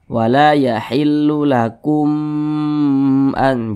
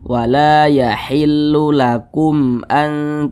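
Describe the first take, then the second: First: The sound in 'lakum an' is drawn out long. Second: The sound in 'lakum an' is kept short. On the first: The speaker calls it wrong. "Jangan dipanjangkan seperti itu" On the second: The speaker calls it right. "dibaca pendek saja"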